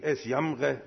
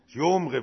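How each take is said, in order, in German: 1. Der Vokal ist ein einfaches standarddeutsches a. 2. Der Vokal ist ein dunkles schwäbisches o.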